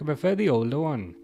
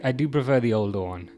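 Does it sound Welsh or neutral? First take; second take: Welsh; neutral. First: It is said with a Welsh-sounding accent. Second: It is said in his normal accent.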